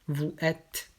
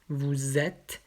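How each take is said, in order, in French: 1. Les mots sont prononcés séparément, sans liaison. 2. La consonne finale se lie au mot suivant. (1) "d'abord sans la liaison" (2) "après avec la liaison"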